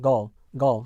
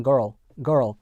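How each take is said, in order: First: Put-on GIRL as "guhl", long central vowel, no R; British silent R. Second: Put-on GIRL with a strong "er" before the L; American R-coloured vowel. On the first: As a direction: say girl British-style, dropping the R. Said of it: "영국 영어에선". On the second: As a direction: say girl American-style, R fully sounded. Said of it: "이 미국 영어에선". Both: Shown as a demonstration.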